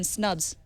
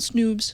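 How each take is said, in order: First: The vowel sounds like the one in cup. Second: The vowel sounds like the one in food. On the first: The speaker calls it right. "I'm Snubs" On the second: The speaker calls it wrong. "not Snoobs"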